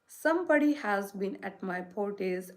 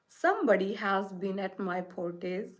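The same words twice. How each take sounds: First: It is said in a small, wee voice. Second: It is said in a deep, gruff voice. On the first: "in his little small wee voice" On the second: "in his great rough, gruff voice"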